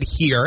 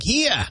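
First: Said in the usual way. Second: "Here" as high "He-ah", no R; dropped R. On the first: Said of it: "I said". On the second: Retold or imitated. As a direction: answer "Here" like a Maine toddler, R dropped. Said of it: "get him to pronounce the R".

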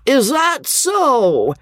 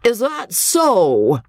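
First: Put-on slow, much higher taunting drunk; drunken drawl. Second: Put-on slow, higher taunting drunk; drunken drawl. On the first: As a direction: stretch each word in a mocking drawl. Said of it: "came the maddening and disrupting refrain". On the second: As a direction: drag it out mockingly like a drunk heckler. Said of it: "a drawling, drunken voice ... a taunting". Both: A narrator's reading.

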